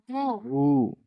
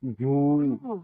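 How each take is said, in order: First: "घू" said short and crisp with a high pitch jump; short ghu. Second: "घू" with the long vowel drawn out; long ghoo. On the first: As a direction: clip the vowel in "घू" short. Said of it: "घा के साथ हम जोड़ रहे हैं". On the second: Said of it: "थोड़ा इसे खींच कर पढ़ना पड़ेगा". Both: Shown as a demonstration.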